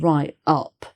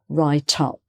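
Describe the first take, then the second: First: The T is separated from the following word. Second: The T runs on into the following word. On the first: The speaker calls it wrong. "not write up" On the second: The speaker calls it right. "but write up"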